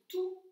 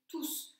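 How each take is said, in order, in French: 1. Le s final est muet. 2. Le s final se prononce. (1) "Le S qui était silencieux ici" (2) "se prononce là"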